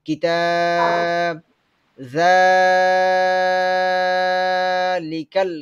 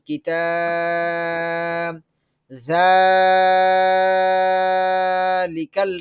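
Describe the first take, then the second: Both takes have the same delivery.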